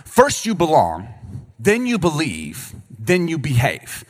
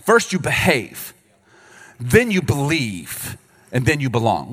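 First: Slow, deliberate listing. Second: Slow, deliberate reversed list; slow, mocking the wrong order. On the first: Preacher teaching the divine order, slow and deliberate. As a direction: spell out each step slowly. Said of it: "That's the divine order". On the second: Pastor mocking the church's old message, slow and deliberate. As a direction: lay out the wrong order slowly. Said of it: "here was the message we were sent". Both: Shown as a demonstration.

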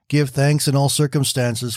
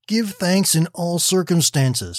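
First: Said in the usual way. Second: Slow, higher, "Give thanks" set firmly apart; the verse pressed home slowly; emphatic quote. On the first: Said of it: "read from the Bible passage". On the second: A narrator's reading. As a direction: quote the verse as a firm reminder. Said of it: "she quoted".

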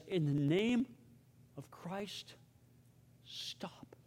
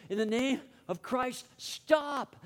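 First: Fading into a voiceless whisper; acted dying words, broken by pauses, dropping to a whisper; dying breath. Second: High-pitched cry building to STOP; acted shout, pitch climbing on the last word; retold shout. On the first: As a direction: let each phrase ebb away like a last breath. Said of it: "with his dying breath". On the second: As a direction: re-enact a monk crying out to halt a fight. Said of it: "and shouting".

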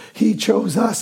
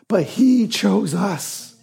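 First: Said in the usual way. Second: Slow, with he leaned on hard; stress on he. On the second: Real, not acted. Pastor tells church God chose them, stressing he. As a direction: hit he, then let chose us fall.

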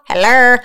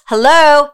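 First: "hello" said as "heller"; slangy hello. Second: Higher, pointed "hello" with a clear long O. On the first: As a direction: turn the end of "hello" into a playful "-er". Same word repeated in slangy form. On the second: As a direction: call "hello" as if checking they are listening. Playful call to listeners, repeated. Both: Shown as a demonstration.

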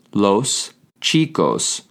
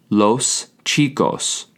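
First: Slow, with a stretched final s in "chicos"; slow drawn-out repeat. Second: Slowly and clearly: los chicos; slow model pronunciation. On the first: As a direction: repeat "Los chicos" slowly, holding the last s. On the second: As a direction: spell out "los chicos" syllable by syllable for the learners. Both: Shown as a demonstration. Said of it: "you say".

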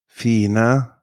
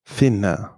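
First: "Fine" with a long ee sound; long vowel. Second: "Finne" with a short i; short vowel. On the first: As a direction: stretch the i in "Fine". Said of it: "is usually pronounced long". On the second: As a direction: keep the i in "Finne" brief. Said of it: "short if there are two consonants". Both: Shown as a demonstration.

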